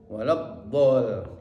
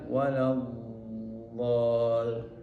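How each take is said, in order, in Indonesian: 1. Bunyi dhad dipotong pendek. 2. Bunyi dhad ditahan dan mengalir. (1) "Tidak betul kalau kita mengucapkan waladdol" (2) "mestinya waladdol"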